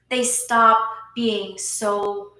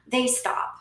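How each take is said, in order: First: "stop" stretched long and slow, drawn out for weight; drawn-out "stop", each word landed slowly; slow emphatic stop. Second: Said in the usual way. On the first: Real, not acted. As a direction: lean hard on "stop", dragging it out.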